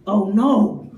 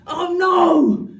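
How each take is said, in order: First: Low, deadpan oh no; low deadpan sigh of dismay; flat disappointed. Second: Higher, louder oh no; panicked blurt; loud comic cry; loud mock yelp. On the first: Retold or imitated. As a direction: let down, dry. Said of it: "she'd be like". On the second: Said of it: "he'd be like".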